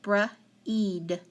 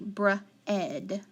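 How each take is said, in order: First: The vowel is a long E sound. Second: The vowel is a short E sound. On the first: The speaker calls it wrong. "Let's try it with the long E first" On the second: The speaker calls it right. "How about with the short E?"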